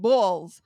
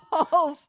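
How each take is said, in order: First: Lightly imitating an Italian American accent. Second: Hint of an Italian American accent. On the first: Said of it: "with an Italian-American accent". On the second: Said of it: "it's the way he says balls".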